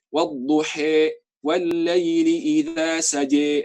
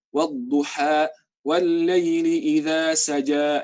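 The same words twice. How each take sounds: First: "Wadduha" as wadduhe, "saja" as saje; slow recitation turning final a to e in "Wadduha", "saja"; Warsh E vowels. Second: "Wadduha" and "saja" ending in open a; slow, drawn-out recitation with a endings on "Wadduha", "saja"; usual Hafs reading. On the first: Teacher demonstrates Warsh reading, final e vowels. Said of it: "pakai E semuanya". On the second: Teacher recites the familiar way, open a endings. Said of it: "Kalau kita kan baca". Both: Shown as a demonstration.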